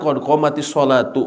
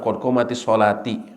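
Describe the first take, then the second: First: The last word ends with an 'oo' vowel. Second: The last word ends with an 'ee' vowel. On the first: The speaker calls it right. "Kalau digabungkan qad qamatis salatu" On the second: The speaker calls it wrong. "bukan qad qamatis salati"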